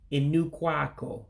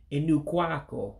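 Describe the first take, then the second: First: The first word's final vowel is dropped. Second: The same.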